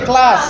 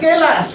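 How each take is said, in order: First: The k and l form a cluster without vowel. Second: A vowel is inserted between the k and l. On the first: This is the standard pronunciation. The speaker calls it right. "কিন্তু উচ্চারণ কি ক্লাস" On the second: This is how some people read it in regional speech. The speaker calls it wrong. "Madam পড়ে কেলাস"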